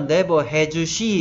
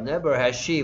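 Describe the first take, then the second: First: Each word is said separately and clearly. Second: The words run together quickly like a native speaker. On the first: "맨날 never has she 이런 것만 듣다가" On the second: "막 원어민 발음"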